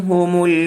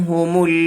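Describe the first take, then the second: The two takes are said the same way.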